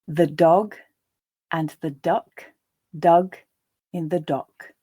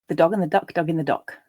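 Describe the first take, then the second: First: The sentence is read slowly. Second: The sentence is read at a natural pace. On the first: "I'll read the first time more slowly" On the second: "the second and third times at a more natural pace"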